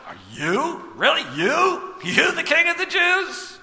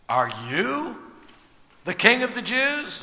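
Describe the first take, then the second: First: Incredulous and sneering, building higher; derisive disbelief. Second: A quiet, weighted "you" with the rest rising in question; emphatic you. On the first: Retold or imitated. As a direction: scoff at the beaten prisoner. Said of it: "a little derisive". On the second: A narrator's reading. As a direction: lean on "you" as if doubting. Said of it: "it is emphatic".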